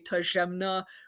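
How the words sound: The name is said with a French accent. "pronounce it like a French person"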